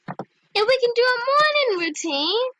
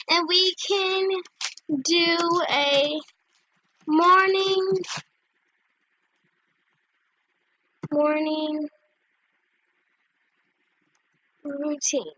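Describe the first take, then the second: First: Higher, lilting pitch of an idea; eager suggestion. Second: Halting, long gaps between words; typing aloud. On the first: Proposing a morning routine to new friend, eager. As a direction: pitch it brightly in one flow. First says the idea brightly. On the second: Typing a morning routine idea to friend, slowly. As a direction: spell out the message word by word. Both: Real, not acted.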